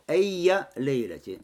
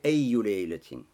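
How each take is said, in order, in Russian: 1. Первое слово заканчивается на гласный 'a'. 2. Первое слово заканчивается на гласный 'u'. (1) "фатха в конце" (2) "с даммой"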